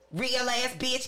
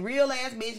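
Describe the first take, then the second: First: The voice sounds harsh and rough. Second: The voice sounds soft and gentle. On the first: "I can take this voice and I can make it sound real, like... I can sound real raggedy out here" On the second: "Or I can say"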